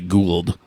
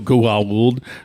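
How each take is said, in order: First: The vowels merge into one syllable, like gold. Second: The two vowels are said as separate syllables. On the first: "They would just say Gould. Instead of like gold" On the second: "couldn't go Goa'uld"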